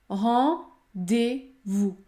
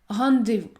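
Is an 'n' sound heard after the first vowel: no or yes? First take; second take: no; yes. First: Only a nasal vowel, with no 'n' consonant. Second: An 'n' consonant follows the first vowel. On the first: The speaker calls it right. "il faut uniquement prononcer la voyelle nasale en" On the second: The speaker calls it wrong. "Il ne faut pas dire rendez-vous"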